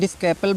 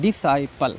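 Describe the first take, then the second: First: A k sound follows the s. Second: The c is silent, with no k sound. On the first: The speaker calls it wrong. "डिस्कैपल बोलते हैं कुछ बच्चे" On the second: The speaker calls it right. "इसको जो है डिसाइपल पढ़ना है"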